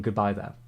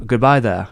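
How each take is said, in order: First: Said in the usual way. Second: Loud, hammed-up Jedi farewell; Ewan McGregor impression. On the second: Streamer signing off as Obi-Wan, loud mock impression. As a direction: play Obi-Wan saying goodbye, much louder. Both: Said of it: "Look like Ian McGregor".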